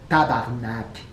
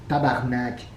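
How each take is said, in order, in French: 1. Le mot est raccourci en tabarnak. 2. Le mot est raccourci en tabarnak.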